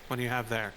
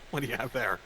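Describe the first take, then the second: First: It is said in a flat, neutral tone. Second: It is said in a bewildered, expressive tone. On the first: The speaker shows no real reaction. "the voice I hear whenever I read that with that neutral face on the screen" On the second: The speaker is confused by what they see. "Versus like"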